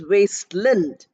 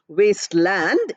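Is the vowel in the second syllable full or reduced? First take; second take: reduced; full. First: The second syllable has a weak, reduced vowel. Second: The second syllable has a full, clear vowel. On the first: The speaker calls it right. "Lind is pronounced with a non accented er sound" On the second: The speaker calls it wrong. "Please don't, don't pronounce it as wasteland"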